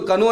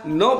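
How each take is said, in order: First: It starts with a pronounced k sound. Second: It starts directly with an n sound. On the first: The speaker calls it wrong. "तुमको कनो नहीं पढ़ना है" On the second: The speaker calls it right. "नो पढ़ना है"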